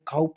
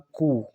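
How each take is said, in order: First: It sounds like 'kowp' with the final p sounded. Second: It sounds like 'koo' with the final p silent. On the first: The speaker calls it wrong. "इसका जो pronunciation है वो काउप नहीं है" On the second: The speaker calls it right. "इसको पढ़ा जाएगा कू"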